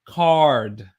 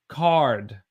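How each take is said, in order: First: A strong R sound follows the vowel. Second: The same.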